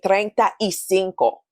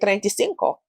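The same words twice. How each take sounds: First: The phrase is said slowly, each word apart. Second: The phrase is said quickly, words run together. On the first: This is careful speech rarely heard from native speakers. "you'll scarcely hear a Spanish speaker say" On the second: This is how native speakers usually say it. "they tend to speak a little bit faster"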